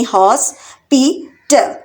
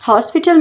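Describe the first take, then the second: First: hospital in three slow separate beats; split into syllables. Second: Said in the usual way. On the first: Shown as a demonstration. Teacher counting out three syllables for learners, syllable by syllable. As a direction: break hospital up as हॉस, पि, टल. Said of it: "hospital में है three syllable". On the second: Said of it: "इसमें कितने syllables हैं".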